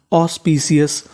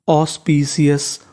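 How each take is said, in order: First: Said in the usual way. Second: ऑस्पिशियस said slowly, syllable by syllable: aus-pi-shi-yas; slow model word. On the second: Shown as a demonstration. (ऑस्पिशियस धीरे-धीरे) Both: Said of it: "तो देखिए meaning कैसे बनती है".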